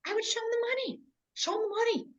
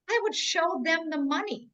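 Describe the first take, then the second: First: High, soft, breathy sing-song take; lightly put-on high voice; mock voice. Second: Said in the usual way. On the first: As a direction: float the words up high like a sales pitch. Replays her line in a put-on voice.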